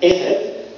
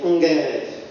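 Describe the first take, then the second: First: The word starts with a plain vowel sound. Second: The word starts with an ng sound. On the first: This is the usual pronunciation. "instead of saying erev" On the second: "they pronounce a I as a n"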